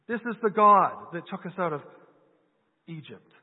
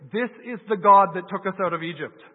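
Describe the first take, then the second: First: Mocking the idea that a golden calf saved them; incredulous mock echo. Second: Loud proclamation. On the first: Preacher echoing the Israelites in disbelief to the congregation, mocking. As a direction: repeat their claim in disbelief, trailing off at the end. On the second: Retold or imitated. Preacher quoting the Israelites to the congregation, loud proclamation. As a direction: proclaim it loudly to the crowd. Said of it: "They say".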